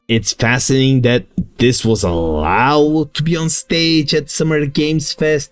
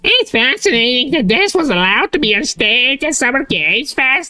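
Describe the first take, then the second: First: It is said in his normal voice. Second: It is said in a put-on mocking voice.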